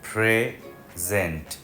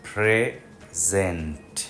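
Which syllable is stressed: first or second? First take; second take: first; first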